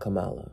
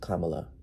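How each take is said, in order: First: The stress is on the second syllable. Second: The stress is on the first syllable. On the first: The speaker calls it wrong. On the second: The speaker calls it right. "Her name is pronounced"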